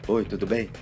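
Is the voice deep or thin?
deep. It is said in a deep Batman-like voice.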